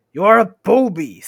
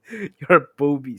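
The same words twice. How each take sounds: First: High, loud, drawn-out name-calling; indignant troll shout, pitched up; troll insult. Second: Loud insult near normal pitch; milder troll insult. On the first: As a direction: hurl the silly insult loudly. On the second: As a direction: toss off the insult loudly, less hammed-up. Retake of insult after laughing. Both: Acted.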